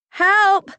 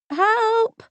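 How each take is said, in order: First: It is said loudly as a cry. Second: It is said quietly and timidly. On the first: "I cry" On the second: "I squeaked timidly"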